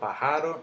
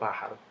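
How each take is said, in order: First: The stress falls on a later syllable. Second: The stress falls on the first syllable. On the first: The speaker calls it wrong. "Yo no digo pájaro" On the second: The speaker calls it right. "Yo digo pájaro. El golpe está en la pa"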